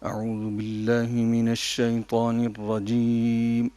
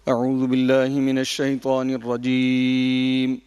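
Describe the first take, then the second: First: It starts at a low, soft pitch. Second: It starts at a high, loud pitch. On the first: The speaker calls it right. "अगर इसको आप इस तरह से पढ़ें, ... अगर आहिस्ता आवाज़ से करते" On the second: The speaker calls it wrong. "थोड़ी-सी इब्तिदा में इन्होंने थोड़ा-सा ऊपर इब्तिदा की है"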